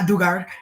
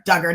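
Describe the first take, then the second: First: The name is said with Spanish-like vowel sounds. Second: The name is said with English vowel sounds. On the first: The speaker calls it wrong. "I want to say it in like Spanish" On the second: The speaker calls it right. "Duggar, not Dugar"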